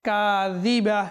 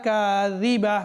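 Both takes have the same delivery.

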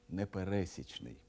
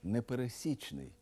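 First: The stress falls on a different syllable. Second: The stress falls on the syllable 'сі'. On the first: The speaker calls it wrong. "а не" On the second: The speaker calls it right. "Зверніть увагу і на наголос"

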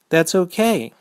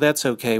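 First: It is said in an accepting, agreeable tone. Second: It is said in a refusing, dismissive tone. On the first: The speaker agrees to the offer. "That means you are fine with that choice" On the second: The speaker declines the offer. "That's the saying no by saying that's okay"

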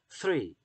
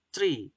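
First: The word starts with a 'th' sound. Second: The word starts with a plain 't' sound. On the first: The speaker calls it right. "T H-nya sendiri phonetic symbol itu kalau pronouncing-nya adalah sehingga three" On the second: The speaker calls it wrong. "T-nya berubah menjadi T. Three. Itu masih salah"

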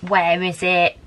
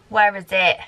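First: It is said in a Gollum impression voice. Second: It is said in her ordinary voice.

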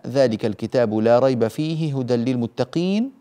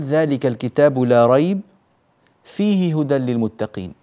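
First: It is said in one unbroken stretch. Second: There is a pause after la rayb only.

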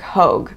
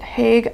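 First: The vowel sounds like 'oh', as in 'rogue'. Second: The vowel sounds like 'ay', as in 'vague'. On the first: The speaker calls it right. "It is H-O-G-E" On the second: The speaker calls it wrong. "I pronounced it Hague. I thought it was an A"

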